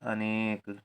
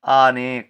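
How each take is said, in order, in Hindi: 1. पहला स्वर छोटा ही रहता है। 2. पहला स्वर देर तक बोला जाता है। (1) "तो हम लिखेंगे छोटा आ" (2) "बड़ा आ लिख दें ... तो हो जाएगा अनेक। अनेक, अनेक गलत"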